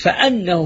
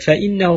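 First: The hamza is said with an 'a' vowel. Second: The hamza is said with an 'i' vowel. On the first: The clause is read as a verbal noun. "هنا على تأويل مصدر" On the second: The clause stands as a full sentence. "لو كسرنا"

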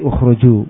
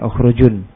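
First: The word ends on a vowel, without n. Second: The word ends with an n sound. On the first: The reader stops on this word. "Ketika waqaf jadi ukhruju" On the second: The word is read on without stopping. "karena ya ukhrujun"

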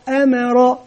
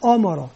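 First: The opening vowel sounds light and thin. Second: The opening vowel sounds heavy and emphatic. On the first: The speaker calls it right. "لا أما أمر" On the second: The speaker calls it wrong. "ننتبه ألا نقول أمر"

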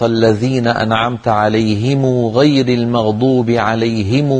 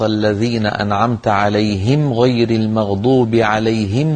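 First: The m of alayhim is followed by long u. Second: The m of alayhim ends with no vowel. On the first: "كانت تضم هذه الميم وتشبعها وتصلها بواو" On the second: This is the common reading. "نحن في الأغلب الأعام في القبائل نسكنها"

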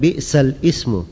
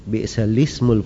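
First: A glottal stop is heard before ismu. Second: The l runs straight into ismu, no glottal stop. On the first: The speaker calls it wrong. "Tidak dikatakan bi'sal ismu" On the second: The speaker calls it right. "Jadi lismu"

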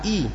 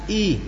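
First: The vowel is said plainly and naturally. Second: The vowel is overdone, stretched like laughing. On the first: The speaker calls it right. "Biasa i" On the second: The speaker calls it wrong. "tidak usah i"

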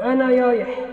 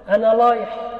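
First: The r sound is said as y. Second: The r sound is said as l. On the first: "قلبت الراء ياء" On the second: "أبدلت الراء لاما"

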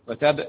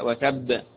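First: The final b is cut short without bounce. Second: The final b is doubled and bounced. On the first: The speaker calls it wrong. "ما قلتش وتب" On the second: The speaker calls it right. "لا وتب"

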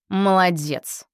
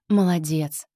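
First: It is said with a sarcastic tone. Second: It is said warmly and sincerely. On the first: It is a reproach. "С сарказмом" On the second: It is praise. "С теплотой"

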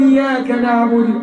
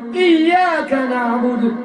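First: The y sound is short and single. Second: The y sound is doubled and held. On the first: It means worshipping the rays of the sun. The speaker calls it wrong. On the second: It means worshipping only God. The speaker calls it right.

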